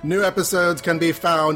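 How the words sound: It is said in a put-on character voice.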